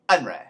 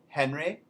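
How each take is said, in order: First: It begins with a vowel, no 'h'. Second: It begins with an audible 'h' sound. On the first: "we leave off the H in the beginning of words" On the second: "instead of Henry"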